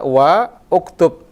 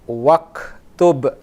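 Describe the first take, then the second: First: Wa and uktub are said separately, vowel kept. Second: Wa runs straight into ktub, vowel dropped. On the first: The speaker calls it wrong. "Kalau bisa wa uktub, kalau bisa begitu" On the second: The speaker calls it right. "ketika kita gabung dengan wa, waktub, langsung ke kaf"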